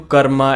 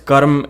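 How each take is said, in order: First: The word ends with an added vowel sound. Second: The word ends on the consonant m. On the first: The speaker calls it wrong. "I don't know who changed it to karma" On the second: The speaker calls it right. "the word is karm"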